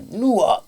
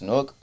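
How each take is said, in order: First: The name is said fully with two syllables. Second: The name is squeezed into one short syllable. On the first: "They could either say it two ways" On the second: "They could either say it two ways"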